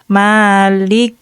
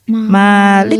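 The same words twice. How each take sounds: First: It is said slowly, every sound clear. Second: It is said fast, a middle sound slurred. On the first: The speaker calls it right. "kita pelan-pelan" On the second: The speaker calls it wrong. "Itu kalau kecepatan eh, seperti nggak terbaca"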